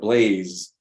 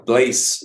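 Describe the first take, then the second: First: The final sound is a voiced, buzzing z. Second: The final sound is an unvoiced, hissing s. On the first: The speaker calls it right. "instead of blaze" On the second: The speaker calls it wrong. "why did he pronounce it like that"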